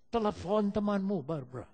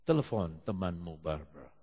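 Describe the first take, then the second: First: Repeated order, firmer and more raised; Holy Spirit's insistent command. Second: Low, measured voice falling away; Holy Spirit's instruction. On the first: The Holy Spirit answers a doubt, insistent. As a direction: press the instruction home. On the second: The Holy Spirit directs someone in morning prayer, low and calm. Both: Retold or imitated. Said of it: "Roh Kudus bilang sama dia".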